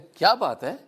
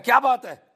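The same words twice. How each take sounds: First: It sounds like a genuine question. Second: It sounds like an angry scolding.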